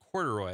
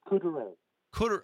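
First: The name ends with an 'oy' sound. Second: The name ends with an 'ay' sound. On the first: The speaker calls it wrong. "Am I saying that wrong?" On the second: The speaker calls it right. "Ends with an A"

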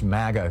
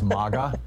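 First: The first vowel sounds like the one in maggot. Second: The first vowel sounds like the one in mama. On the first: It echoes an insulting word. "that sounds too much like maggot" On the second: It avoids echoing an insulting word. "which sounds kind of like mama or something"

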